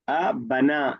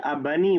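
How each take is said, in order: First: The word ends with an 'ah' vowel. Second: The word ends with an 'ee' vowel. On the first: The speaker calls it right. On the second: The speaker calls it wrong.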